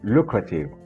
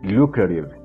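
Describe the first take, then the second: First: The t is pronounced as a clear t. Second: The t is pronounced as a soft flap. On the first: "Yes, lucrative" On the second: "in American English, you're going to hear, very likely"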